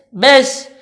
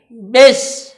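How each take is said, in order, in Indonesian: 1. Bunyi vokalnya seperti e. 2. Bunyi vokalnya seperti e.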